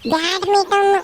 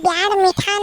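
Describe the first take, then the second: First: The word ends like 'badminton'. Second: The word ends like 'bad mithan'. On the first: The speaker calls it right. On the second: The speaker calls it wrong. "ಅದು ಬ್ಯಾಡ್ ಮಿಠಾನ್ ಅಲ್ಲ"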